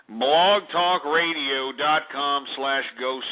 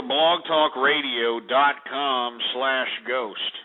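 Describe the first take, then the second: First: Blogtalkradio spelled out slowly; slow and clear. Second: Blogtalkradio said slowly and deliberately; slow and clear. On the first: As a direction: read the address slowly, word by word. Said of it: "go to blogtalkradio dot com slash ghost". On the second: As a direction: give the web address slowly. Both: Shown as a demonstration.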